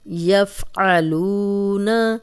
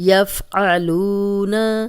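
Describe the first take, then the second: The two takes are said the same way.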